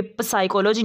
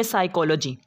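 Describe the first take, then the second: First: "प-, साइकोलॉजी" with p sounded before s; wrong pronunciation. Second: "साइकोलॉजी" starting straight on s; silent p. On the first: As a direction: start "साइकोलॉजी" with an audible p. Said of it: "नहीं पढ़ना". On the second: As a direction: drop the p from "साइकोलॉजी". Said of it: "इसको पढ़ेंगे". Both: Shown as a demonstration.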